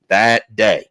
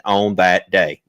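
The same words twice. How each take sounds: First: "That" hit firmly and a bit louder, falling end; emphatic repeat. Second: Said in the usual way. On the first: Shown as a demonstration. Preacher echoing the verse, emphatic stress. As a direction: lean on "That day" to drive it home.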